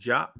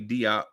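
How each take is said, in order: First: The name is said the West African way. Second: The name is said the American way.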